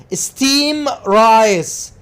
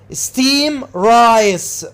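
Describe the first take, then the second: First: The D at the end of steamed is dropped. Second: The same.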